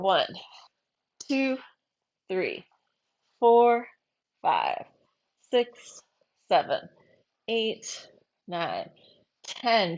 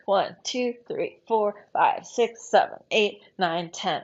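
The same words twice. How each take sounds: First: The counting is at a slow pace. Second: The counting is at a fast pace.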